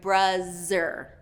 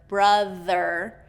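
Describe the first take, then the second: First: The middle consonant is a z sound. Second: The middle consonant is a voiced th sound. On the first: The speaker calls it wrong. "I'm hearing bruzzer" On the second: The speaker calls it right. "instead of brother"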